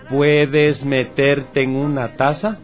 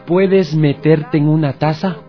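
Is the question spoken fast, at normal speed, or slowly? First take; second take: slow; normal. First: The question is spoken at a slow speed. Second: The question is spoken at a normal speed.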